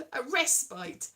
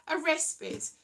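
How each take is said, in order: First: "respite" said RES-pite, rhyming with kite; "respite" with a long I like "spite"; pron respite. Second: "respite" said RES-pit, short i; "respite" ending like "pit"; pron respite. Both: Shown as a demonstration. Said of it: "Is it a respite or a respite?".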